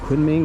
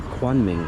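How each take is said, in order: First: The first syllable sounds like 'koon'. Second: The first syllable sounds like 'kwan'. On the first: This is the usual way to say it. "instead of saying Kunming" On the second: This is how many local people say it. "they say Kwanming"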